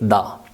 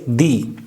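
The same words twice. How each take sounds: First: The word is said with an 'uh' vowel. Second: The word is said with an 'ee' vowel. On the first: It comes before a consonant sound. "If a word that starts with a consonant sound" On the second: It comes before a vowel sound. "when it comes before a word that starts with a vowel sound"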